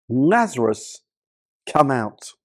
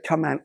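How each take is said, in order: First: Calling a dead man out of the tomb, only slightly raised; a mild, steady call of the name; loud call. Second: Said in the usual way. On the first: A narrator's reading. Jesus calls Lazarus from the tomb, lightly raised call. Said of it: "called out in a loud voice". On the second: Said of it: "if he just said".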